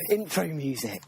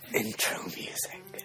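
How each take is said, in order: First: It is said in a normal speaking voice. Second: It is said in a seductive whisper.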